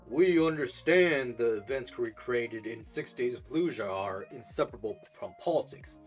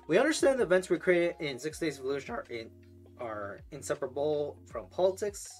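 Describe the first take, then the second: First: It is read in a deep voice. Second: It is read in a normal voice.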